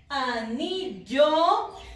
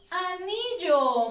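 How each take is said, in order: First: The start is soft and the final syllable loud. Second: The final syllable has ordinary loudness.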